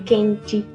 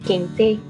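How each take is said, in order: First: The final vowel is reduced to an 'i' sound. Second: The final vowel is a clear 'e' sound. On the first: This is the common Brazilian Portuguese pronunciation. "e não ... como é comum no português do Brasil" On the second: This is the southern caipira subdialect pronunciation. "um E gráfico, sempre pronunciado como fônico"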